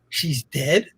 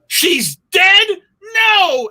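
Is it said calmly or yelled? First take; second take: calmly; yelled. First: It is said in a calm, stunned voice. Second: It is yelled loudly and dramatically.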